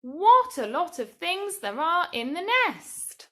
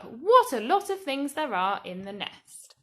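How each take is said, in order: First: Higher, louder exclamation; exclaimed. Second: A bit louder exclamation; mild exclamation. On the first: Teacher reading a sample answer to children, exclaiming. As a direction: say it with wonder. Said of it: "Maybe you might have written". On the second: Teacher rereading the sample answer, mildly exclaiming. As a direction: exclaim it again, lighter. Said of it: "That would start with what". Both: Shown as a demonstration.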